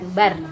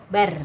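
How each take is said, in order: No difference in how they are said.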